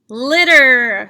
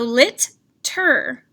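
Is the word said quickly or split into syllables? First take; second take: quick; split. First: The word is said quickly as one unit. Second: The word is split into two separate syllables. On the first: "Say it quickly" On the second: "sounding it out"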